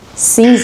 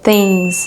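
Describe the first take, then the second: First: It starts without the 'th' sound. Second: It starts with the 'th' sound. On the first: The speaker calls it wrong. "c'est pas things, things, non, c'est pas ça" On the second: The speaker calls it right. "on n'oublie pas le T H"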